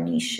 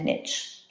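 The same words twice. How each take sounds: First: It is said with a French pronunciation. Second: It is said with an English pronunciation.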